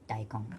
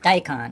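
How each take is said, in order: First: It is said with a Japanese pronunciation. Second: It is said with an English pronunciation.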